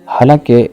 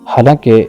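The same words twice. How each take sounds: The two takes are said the same way.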